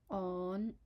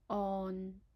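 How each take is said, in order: First: It is said in Cantonese tone five. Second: It is said in Cantonese tone six. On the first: "the fifth tone on" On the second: "and the sixth tone on"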